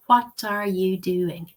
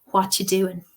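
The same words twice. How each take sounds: First: "What are you doing?" said slowly, every word full, "are" clearly sounded; careful full form. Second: "What you doing?" with "are" dropped, words run together; connected speech form. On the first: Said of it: "you're modeling it correctly". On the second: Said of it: "but you might hear it as". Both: Shown as a demonstration.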